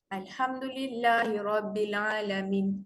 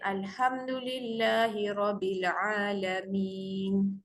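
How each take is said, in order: First: The last vowel is cut short with an abrupt stop. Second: The last vowel is drawn out long before stopping. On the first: The speaker calls it wrong. "Kalau kita baca pendek jadi susah. Dia berhenti mengejut" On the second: The speaker calls it right. "dibaca panjang memudahkan sebutan"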